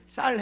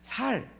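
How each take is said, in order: First: The word begins with a tense s sound. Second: The word begins with a plain s sound. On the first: The speaker calls it right. "쌀 해봐라" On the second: The speaker calls it wrong. "살 그러면"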